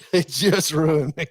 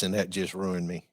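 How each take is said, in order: First: Higher, louder and slower, leaning on It just ruined me; emphatic repeat. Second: Said in the usual way. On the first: Real, not acted. Hunter confessing ducks hooked him, emphatic slow repeat. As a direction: drag out It just ruined me with a laugh behind it.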